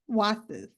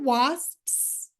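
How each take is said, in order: First: The final consonant sound is left off. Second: The final consonant cluster is fully pronounced. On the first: "like Jess's, wasps, and not pronounce that final sound" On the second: "that's hard for me to say"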